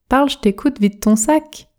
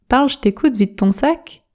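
No difference in how they are said.

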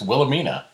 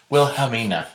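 First: The middle H sound is silent. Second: The middle H sound is clearly pronounced. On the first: The speaker calls it right. "It's just Wilhelmina" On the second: The speaker calls it wrong. "You're like stretching it out weird. ... you're sticking an H in there"

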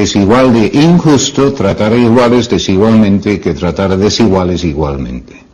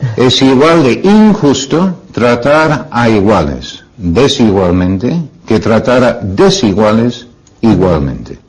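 First: It is said at normal speed. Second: It is said more slowly.

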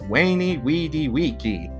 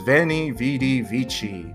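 First: Each word begins with a W sound. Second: Each word begins with a V sound. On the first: "in classical Latin, that would actually be pronounced" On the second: "The famous line is"

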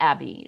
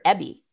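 First: The name is said with a non-New Zealand vowel. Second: The name is said with a New Zealand vowel. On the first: The cat did not recognise its name this way. The speaker calls it wrong. "she would not respond to Abby" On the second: This is how the owner said the name. The speaker calls it right. "because of the New Zealand vowel shift, she was, her owner actually called her Abby"

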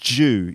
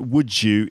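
First: The words blend into one syllable with a J. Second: Both words are said fully and separately.

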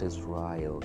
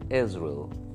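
First: The first syllable is not the stressed one. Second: The first syllable is stressed and louder. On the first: The speaker calls it wrong. "It's not Israel" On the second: The speaker calls it right. "So you have to speak is louder"

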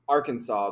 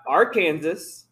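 First: The word ends with a 'saw' sound. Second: The word ends like the name 'Kansas'. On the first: This is the usual way the name is said. "I don't understand why we pronounce Arkansas the way that we do" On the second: This is how the spelling suggests it could be said. "Why is it not Arkansas?"

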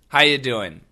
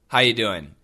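First: The word 'are' is dropped entirely. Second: The same.

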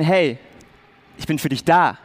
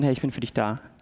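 First: It sounds heartfelt and sincere. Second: It sounds casual and superficial.

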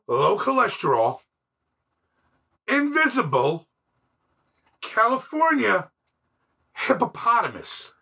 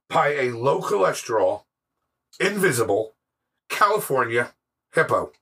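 First: It is said with heightened dramatic effect. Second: It is said plainly, without dramatic effect.

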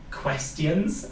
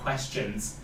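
First: The E and T are strongly pronounced. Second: The E and T are said in reduced form. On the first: This is the speaker's own Welsh-accented way. "I say questions" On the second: This is the usual way others say it. "instead of questions"

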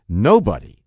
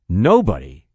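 The two takes are said the same way.

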